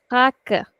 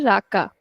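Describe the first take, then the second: First: Raca as HAA-ka, first sound stretched, Portuguese style; stretched first syllable. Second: Raka with both syllables evenly weighted; equal stress on raka. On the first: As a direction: open "raca" on a breathy h-sound and hold it, short ka. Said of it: "I'm stretching the first two letters". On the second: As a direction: give "raka" the same weight on each sound, Hindi style. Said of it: "we put equal stress in both". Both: Shown as a demonstration.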